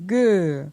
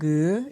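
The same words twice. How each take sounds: First: The syllable is said on a falling tone. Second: The syllable is said on a rising tone. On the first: "pour un ton descendant" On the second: "Pour un ton montant"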